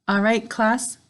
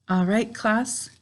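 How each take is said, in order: The two takes are said the same way.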